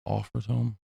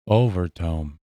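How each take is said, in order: First: The consonant after the first vowel sounds like F. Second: The consonant after the first vowel sounds like V. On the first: "the V's a lot of times are pronounced like F's" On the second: "That's how he pronounced it"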